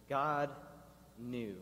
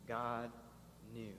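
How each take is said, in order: First: God and knew set apart by pauses; hushed pause between God and knew; slow emphasis. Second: Softer, hushed God knew; whispered-down repeat; quiet repeat. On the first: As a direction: let each word land alone. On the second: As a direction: drop the voice for the echo. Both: Shown as a demonstration. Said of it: "the last two words of chapter two".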